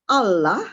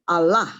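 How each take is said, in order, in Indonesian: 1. Tekanannya ada di suku kata pertama. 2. Tekanannya ada di suku kata kedua. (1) "Bisa tekanannya di al" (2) "bisa di lah"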